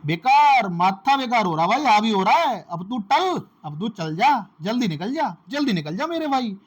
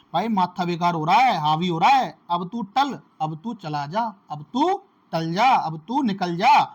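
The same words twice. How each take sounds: First: Higher, louder, fed-up man chasing someone away; exasperated yell. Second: Annoyed man shooing someone off, a bit louder; fed-up man. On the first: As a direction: blow up and shout him out the door. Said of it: "आप कैसे याद रखोगे?". (खीझकर ऊँची, ज़ोरदार आवाज़ में भगाना) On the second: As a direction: grumble that your head is fried and tell him to get lost. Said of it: "तो कैसे बोलते हैं?". (झुंझलाया आदमी, थोड़ा ऊँची आवाज़ में भगाते हुए) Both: Retold or imitated.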